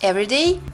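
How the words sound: Only one stress falls across the phrase. It means ordinary or daily. "мы делаем ударение только один раз"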